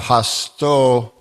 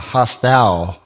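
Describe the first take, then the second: First: The word ends in a plain o vowel. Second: The word ends in an au diphthong. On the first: The speaker calls it wrong. "it would be a hasto, right, if there was an O at the end" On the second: The speaker calls it right. "but it's a hostau, right, because it's a A-U"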